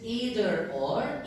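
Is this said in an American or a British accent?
American. It is said in an American accent. "In American English"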